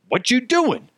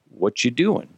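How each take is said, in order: First: It is said in an angry, annoyed way. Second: It is said in a casual, neutral way. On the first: The message is read as hostile. "And he's like all pissed off" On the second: The message is a friendly question. "one guy's like"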